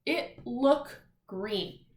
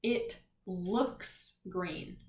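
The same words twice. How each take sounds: First: "It look green" said very slowly, the verb "look" left bare without s; slow, deliberate wrong version; wrong form demo. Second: "It looks green" said very slowly, with the s of "looks" clear; slow, careful corrected version; right form demo. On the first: Teacher to class, slowly reading the wrong verb form. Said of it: "Does that sound right?". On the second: Teacher to class, slowly reading the corrected sentence. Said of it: "Does that sound better?". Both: Shown as a demonstration.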